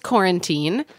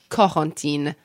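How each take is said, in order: First: The name is pronounced the English way. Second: The name is pronounced the French way. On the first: "Sounds like quarantine" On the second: "if I were speaking French, I would say"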